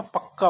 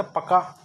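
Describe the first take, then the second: First: पक्का with a held doubled k; पक्का with a clear geminate k; correct form. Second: पका with a short single k; पका as the mistaken word; wrong form. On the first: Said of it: "पक्का होता है". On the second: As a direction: say पका lightly, no doubled k. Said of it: "पका नहीं होता". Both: Shown as a demonstration.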